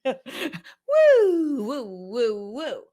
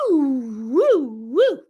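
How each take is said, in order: First: A high woo, then fading woos; playful woo woo. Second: Loud high whooping woo sounds; hormone swings woo. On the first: Pretend. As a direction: start high and loud, let the woos fade. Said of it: "Can I do that again?". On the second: Shown as a demonstration. Doctor acting out her hormones going up and down, loud whooping. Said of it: "her hormones are, like, going".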